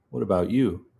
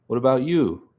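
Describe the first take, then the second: First: Said in the usual way. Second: Higher-pitched, lilting question; raised pitch on the question; higher character voice. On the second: Acted. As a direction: ask it in the other character's higher voice. Flubbed character voice, then redone.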